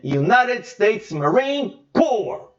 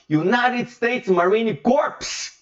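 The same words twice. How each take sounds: First: The last word sounds like core, without p or s. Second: The last word ends with a p and s sound. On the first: It names the Marine Corps. The speaker calls it right. "Você apenas pronuncia cor" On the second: It sounds like the Marines' corpses. The speaker calls it wrong. "então seria os cadáveres da Marinha dos Estados Unidos"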